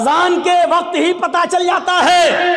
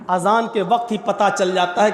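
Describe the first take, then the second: First: High, ringing preacher's shout; loud proclamation. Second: Said in the usual way. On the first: Real, not acted. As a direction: proclaim it to the whole congregation. Repeats it as proclamation. (बुलंद आवाज़ में ऐलान)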